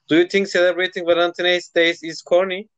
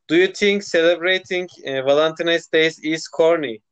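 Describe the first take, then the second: First: It is said at normal speed. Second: It is said more slowly.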